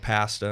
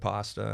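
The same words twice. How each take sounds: First: It is said with a Canadian-style vowel. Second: It is said with a standard vowel. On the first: This is how Canadians say it. "Canadian accent, or at least Ontario accent" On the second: This is the usual way of saying it. "instead of"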